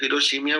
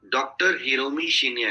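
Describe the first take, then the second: First: हिरोशिमिया run together as "hi-ro-shi-mi-ya", syllables swapped; mispronounced name. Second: हिरोमी शिनिया said as two names, "hi-ro-mi shi-ni-ya"; correct pronunciation. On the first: Coach imitating trainees who botch the doctor's name as हिरोशिमिया, mispronounced. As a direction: garble the name into one word, हिरोशिमिया. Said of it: "बोल दे रहे हैं". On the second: Coach showing trainees how to say हिरोमी शिनिया, correctly as "hi-ro-mi shi-ni-ya". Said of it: "हिरोमी शिनिया बोलना नहीं आता है". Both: Shown as a demonstration.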